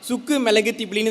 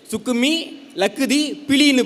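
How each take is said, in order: First: The breaks fall after sukku and milagu. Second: The breaks fall after sukkumi and lakkuthi. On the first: The speaker calls it wrong. "இதை படிக்கூடாது தம்பி" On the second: The speaker calls it right. "படி அப்படின்றாரு"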